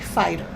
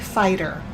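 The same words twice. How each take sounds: First: The middle t is pronounced as a clear t. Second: The middle t is softened into a quick tap. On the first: "but there's a t in there. So say fighter" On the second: "I usually say fighter"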